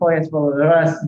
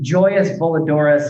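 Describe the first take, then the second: First: It is said with a Spanish pronunciation. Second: It is said with an American English pronunciation. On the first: "the title is in Spanish" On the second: "American gringo pronunciation"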